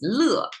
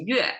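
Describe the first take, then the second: First: The syllable is said as le. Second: The syllable is said as yue. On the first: It means happiness or delight. "One is pronounced as 乐, it's happiness" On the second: It means music. "One is pronounced as 乐 as music"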